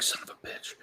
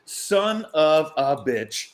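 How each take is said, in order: First: Whispered under the breath; muttered whispered curse. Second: Slow, stretched-out mock groan of regret; slow rueful curse; drawn-out curse. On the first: Retold or imitated. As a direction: curse in a bare whisper to yourself. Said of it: "I'm just like". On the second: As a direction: drag the curse out slowly. Regret at missing the chance.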